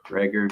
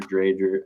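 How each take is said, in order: First: "Dreger" with a hard g, as DREG-er; first pronunciation attempt. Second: "Dreger" with a long ay, as DRAY-jer; alternative pronunciation attempt. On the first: Host unsure of player's name, trying "Dreger" with hard g. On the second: Host unsure of player's name, trying "Dreger" as DRAY-jer. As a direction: say "Dreger" with ay and a soft g. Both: Shown as a demonstration. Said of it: "I don't remember how to say it".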